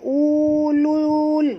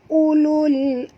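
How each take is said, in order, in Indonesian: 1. Vokalnya dipanjangkan. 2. Vokalnya dibaca pendek. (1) "Bukannya ulul. Bukan ya" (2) "Sebab itu kita baca sini tak boleh panjang"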